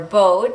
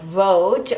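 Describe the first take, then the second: First: The word begins with a B sound. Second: The word begins with a V sound. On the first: "might sound like vote or boat for Spanish speakers" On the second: "the word vote"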